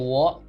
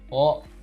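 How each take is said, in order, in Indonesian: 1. Partikel itu diawali dengan bunyi w. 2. Partikel itu adalah vokal o biasa. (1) "bukan wo" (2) "tapi wo"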